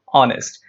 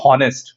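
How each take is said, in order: First: The word starts with a vowel, no H. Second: The word starts with an audible H sound. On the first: The speaker calls it right. "The letter H is silent" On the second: The speaker calls it wrong. "So we don't say honest"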